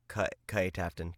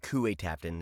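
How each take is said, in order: First: The first word is said with one syllable. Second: The first word is said with two syllables. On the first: The speaker calls it right. "It's Kai Tafton" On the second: The speaker calls it wrong. "it's not Kuwait Tafton"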